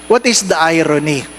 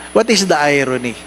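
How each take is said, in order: Both takes have the same delivery.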